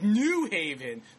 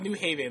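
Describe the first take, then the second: First: It sounds like two words, with New stressed. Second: It runs together like one word, no stress on New. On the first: It is said as if contrasting with an old one. The speaker calls it wrong. "New Haven, not like the Old Haven" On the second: It is said the way locals say it. The speaker calls it right. "we call it New Haven. Like, it's like one word"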